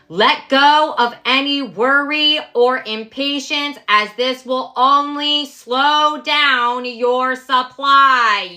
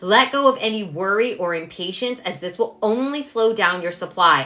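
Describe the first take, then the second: First: It is said loudly. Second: It is said at normal volume.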